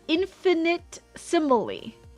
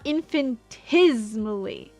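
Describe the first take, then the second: First: The word includes a separate 'ni' syllable. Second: The word leaves out the 'ni' syllable. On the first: This is how the spelling reads when sounded out. "when you sound out the words, it's infinitesimally" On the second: This is how the speaker usually says it. "not infinitesimally"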